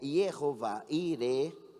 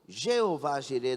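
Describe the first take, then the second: First: The name begins with a Y sound. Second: The name begins with a soft J sound. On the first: This is the original Hebrew form. "que seria Yehová Ire, no hebraico" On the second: This is the form used in Portuguese. "Jeová Jireh na nossa linguagem"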